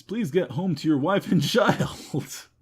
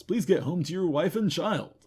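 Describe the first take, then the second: First: Laughing. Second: Said in the usual way. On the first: Real, not acted. Pleading with Mister Weems while laughing. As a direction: crack up partway through.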